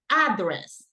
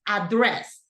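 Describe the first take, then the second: First: The stress is on the first syllable. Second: The stress is on the second syllable. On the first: The speaker calls it wrong. "People say address, and that is not the correct pronunciation" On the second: The speaker calls it right. "It's address"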